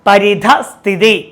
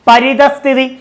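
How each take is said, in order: First: A breathy h sound comes before sthithi. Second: No breathy sound comes before sthithi. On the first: The speaker calls it right. "വിസർഗത്തിന്റെ ഒരു ഒരു ഉച്ചാരണം കൂടെ വരുന്നുണ്ട്" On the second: The speaker calls it wrong. "ഇത് തെറ്റായ പദമാണ്"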